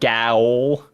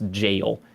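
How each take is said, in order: First: The word begins with a hard G sound. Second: The word begins with a soft J sound. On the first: The speaker calls it wrong. "it's not gowl" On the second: The speaker calls it right. "is just pronounced jail"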